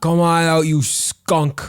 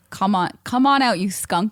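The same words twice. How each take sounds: First: Loud, higher New York cop yell; cop shout. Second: Mock yell. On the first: Retold or imitated. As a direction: bark it like a cop. Repeats cop yell louder. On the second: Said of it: "they yelled at him again".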